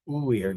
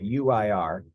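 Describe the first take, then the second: First: Uir said slowly as one word, oo-EER with the u sounded; correct pronunciation. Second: U I R read as three letter names, you-eye-ar; spelled out. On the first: Spanish teacher models uir for students as one spoken word. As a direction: say uir as a single syllable-flowing word, oo-eer. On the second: Teacher contrasts spelling U I R with the spoken ending. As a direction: spell out U I R letter by letter, not as a word. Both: Shown as a demonstration. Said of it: "not U I R".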